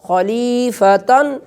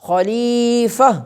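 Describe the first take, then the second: First: The word ends with a -tan sound. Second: The word ends on a plain -a vowel. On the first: The reading continues without stopping. "आखिर पर गोलता है तो खलीफतन" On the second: The reading stops at this word. "जब वक्फ करेंगे तो ये यही गोलता यहाँ के अंदर बदल जाएगी"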